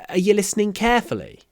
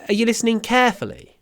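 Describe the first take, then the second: The two takes are said the same way.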